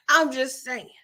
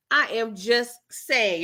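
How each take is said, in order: First: Said in the usual way. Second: "I am just saying" slowed right down, word by word; "I am just saying", each word spaced out deliberately; drawn-out emphasis. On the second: Real, not acted. Repeats it slowly for emphasis.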